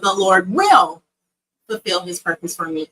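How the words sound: The stress is on will.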